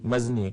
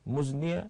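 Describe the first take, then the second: First: The first vowel is an 'a' sound. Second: The first vowel is an 'u' sound. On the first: The speaker calls it wrong. "adik Syafiq baca tadi minal mazni" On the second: The speaker calls it right. "antum anzaltumuhu minal muzni"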